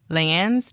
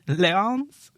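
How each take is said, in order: First: The name is read as the English word lands. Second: The name is given a French-style pronunciation. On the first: "Lands Township?" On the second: "Not if it's French"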